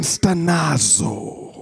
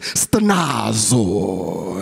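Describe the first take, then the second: First: "stenazo" slow, lower and softer; pronunciation demo. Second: "stenazo" long and low, like a Greek dish; playful Greek flourish. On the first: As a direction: model "stenazo" slowly for repeating. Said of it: "Say it again". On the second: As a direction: serve up "stenazo" with drawn-out Greek flair. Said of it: "like you about to give some Greek, a Greek dish". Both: Shown as a demonstration.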